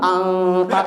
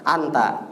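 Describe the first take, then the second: First: The n is hidden and nasalized, recitation style. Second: The n is said plainly, in ordinary speech. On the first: The speaker calls it wrong. "Man anta ikhfa" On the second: The speaker calls it right. "anta biasa aja"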